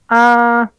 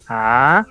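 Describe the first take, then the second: First: The pitch stays high and level. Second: The pitch rises. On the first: "El primer tono es súper elevado" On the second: "el segundo es ascendente"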